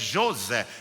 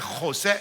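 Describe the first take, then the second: First: The name is said with Portuguese sounds. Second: The name is said with Spanish sounds. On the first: The speaker calls it right. "es José" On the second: The speaker calls it wrong. "mi nombre no es José"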